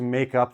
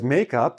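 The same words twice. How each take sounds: First: Both words carry stress. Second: The stress falls on the word make. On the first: It means to do a missed test. "I will put the stress on both" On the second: It is the stuff you put on your face. "I'm putting the stress more on the first syllable"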